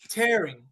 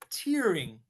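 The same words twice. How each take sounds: First: The first vowel sounds like 'air'. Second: The first vowel sounds like 'ear'. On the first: Something is being ripped. "I am tearing a page out of a book" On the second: Someone is crying. "my friend is crying, he is tearing up"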